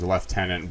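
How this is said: The first syllable sounds like 'lef'. This is the British way of saying it. "the Brits tend to tend to uh, put it as lieutenant"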